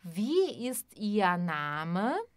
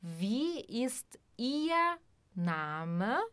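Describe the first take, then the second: First: Slow, clear German question; teacher modelling aloud; slow voiced demo. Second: Slow whispered repeat; whispered model for learners. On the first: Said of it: "Por exemplo". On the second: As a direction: whisper it slowly for students to copy. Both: Shown as a demonstration.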